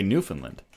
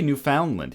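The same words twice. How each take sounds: First: "Newfoundland" as NEW-fun-lund; accepted pronunciation. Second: "Newfoundland" as new-FOUND-land; rejected pronunciation. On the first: Confirming what we say here: "Newfoundland", middle reduced. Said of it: "We say Newfoundland". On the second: Agreeing what isn't said here: "Newfoundland" with full FOUND. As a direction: open up the middle of "Newfoundland" to "found". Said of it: "We don't say Newfoundland here". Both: Shown as a demonstration.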